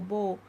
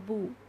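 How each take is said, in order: First: The vowel sounds like an English 'oh'. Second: The vowel is a rounded 'oo'. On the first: The speaker calls it wrong. "the sound comes like English o" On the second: The speaker calls it right. "It's a proper circle"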